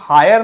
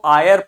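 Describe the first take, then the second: First: The word starts with a clear h sound. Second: The word starts with a vowel, no h. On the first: The speaker calls it wrong. "इसको हायर नहीं पढ़ते हैं" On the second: The speaker calls it right. "इसको आयर पढ़ते हैं"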